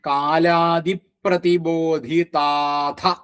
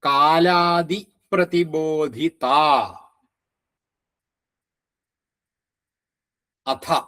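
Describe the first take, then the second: First: The last two words merge into one. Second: The last two words are said separately.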